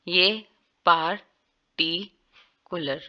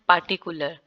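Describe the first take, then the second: First: The final r sound is clearly pronounced. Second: The final r sound is left out. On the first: "इसको आर्च है उसमें क्या करते हैं, वाजिया बोला जा रहा है" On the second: "आर जो है वो बिल्कुल इग्नोर कर रहे हैं"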